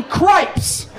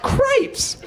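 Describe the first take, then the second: First: High mock-indignant cripes; hammed-up prudish dad swearing cleanly; exasperated dad. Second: Cripes way up high, squeaked and laughing; hammed-up prudish dad at peak outrage; squeaky outraged dad. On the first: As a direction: spit out cripes like a mild curse. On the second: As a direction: top the first cripes with a yelp. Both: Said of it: "My dad's like".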